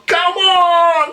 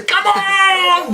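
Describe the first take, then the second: First: High shouted tennis-style cry; Leighton Hewitt "Come on!". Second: High shouted tennis fist-pump cry; Leighton Hewitt "Come on!". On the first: In the pub with Dad, a high Hewitt-style shout. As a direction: roar it like a champion. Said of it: "with me old man going". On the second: Imitating Leighton Hewitt's cry, a high hammed-up shout. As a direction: bellow it like a tennis champ. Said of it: "what's that fucking tennis player, Leighton Hewitt". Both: Retold or imitated.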